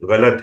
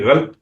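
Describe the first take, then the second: First: A vowel separates the l and t. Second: The l and t are joined without a vowel. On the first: The speaker calls it right. "रैन और लाम जो है वो मिले नहीं हुए" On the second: The speaker calls it wrong. "अक्सरियत लोग जो है वो गलत बोलते हैं"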